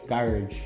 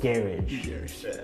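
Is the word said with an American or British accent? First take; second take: American; British. First: It is said with an American accent. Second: It is said with a British accent.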